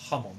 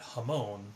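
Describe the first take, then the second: First: The stress falls on the first syllable. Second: The stress falls on the second syllable. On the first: The speaker calls it right. "if you say it correctly, it's Hamon. There's an emphasis on the ha" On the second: The speaker calls it wrong. "you see people call it Hamon"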